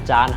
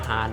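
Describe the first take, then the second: First: The name is said in a non-Spanish way. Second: The name is said the Spanish way. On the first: "หรือว่าออกเสียงอย่างคือจาน" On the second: "ถ้าในภาษาสเปนเขาจะออกเสียงว่า"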